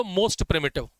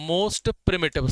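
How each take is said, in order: First: Said in the usual way. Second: Very slow, word by word for notes; slow dictation. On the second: Shown as a demonstration. Teacher dictating notes to class, very slow and deliberate. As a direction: spell it out slowly so students can write. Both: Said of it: "की notes में बस ये लिख लो".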